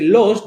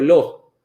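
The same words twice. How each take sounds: First: The final s is clearly pronounced. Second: The final s is swallowed, aspirated. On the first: "Ao invés de"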